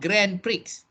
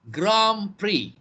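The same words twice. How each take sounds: First: Prix ends with a sounded x. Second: Prix ends in a vowel with no x sound. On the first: The speaker calls it wrong. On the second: The speaker calls it right.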